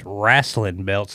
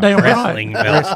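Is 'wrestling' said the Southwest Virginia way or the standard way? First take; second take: Southwest Virginia; standard. First: Wrestling is said with a Southwest Virginia pronunciation. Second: Wrestling is said with a standard pronunciation. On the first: "he is from Southwest Virginia though, because he said wrestling belts" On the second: "not wrestling belts"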